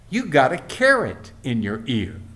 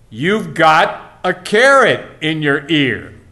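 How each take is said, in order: First: It is said at a normal loudness. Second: It is said a little more loudly.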